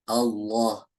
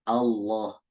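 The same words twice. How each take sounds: No difference in how they are said.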